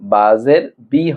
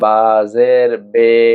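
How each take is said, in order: First: The final vowel is a clear 'ee' sound. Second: The final vowel is a bent 'ay' sound. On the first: The speaker calls it right. "বাজের বি হয়" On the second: The speaker calls it wrong. "এই বে এটাই হলো মাজহুল। এই মাজহুল পড়া যাবে না।"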